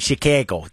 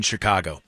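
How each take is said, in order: First: Chicago said "chih-KA-go", hard ch and flat a; Chicago accent pronunciation. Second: Said in the usual way. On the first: Shown as a demonstration. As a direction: say Chicago the way locals do. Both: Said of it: "The way that you guys would say it".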